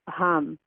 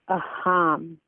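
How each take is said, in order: First: The word is said quickly and fluently. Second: The word is said slowly and carefully. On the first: "the fluent pronunciation" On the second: "the slow pronunciation"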